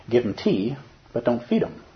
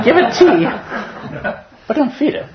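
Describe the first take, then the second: First: Said in the usual way. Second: High, loud mock of the teacher with a laugh; a hammed-up nod to the teacher; teacher's voice. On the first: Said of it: "my teacher told me". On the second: Student quoting his teacher with a grin, high and loud. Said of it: "He said that over there, that guy".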